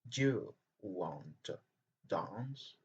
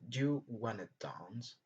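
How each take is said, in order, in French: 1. 'Want to' se prononce en entier, les deux mots sont clairs. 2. 'Want to' se prononce vite, collé en un seul mot : wanna.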